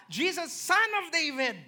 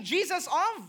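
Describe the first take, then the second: First: "Son of David" stressed as the right answer. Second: Said in the usual way. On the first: Shown as a demonstration. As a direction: correct yourself and land on "Son of David". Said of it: "Jesus what?".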